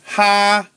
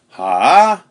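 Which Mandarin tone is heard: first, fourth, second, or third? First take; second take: first; third. First: It is said with the first tone. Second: It is said with a dipping third tone. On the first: "first tone" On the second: "third tone, sort of a dip"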